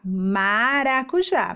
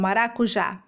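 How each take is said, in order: First: MARACUJÁ slowly, with a long first MA; stress on MA. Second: Said in the usual way. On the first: Shown as a demonstration. Teacher showing the missing beginning, long MA in MARACUJÁ. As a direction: stretch the opening MA of MARACUJÁ. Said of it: "Qual fruta começa assim dessa forma". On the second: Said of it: "Que pedaço que tá faltando".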